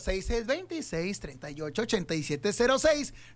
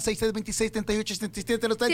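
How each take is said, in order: First: The number is said slowly. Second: The number is said fast.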